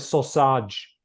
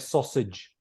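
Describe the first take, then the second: First: The ending is not pronounced as idge. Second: The ending is pronounced as idge. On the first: The speaker calls it wrong. "they'll say sausage" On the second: The speaker calls it right. "they need to say sausage"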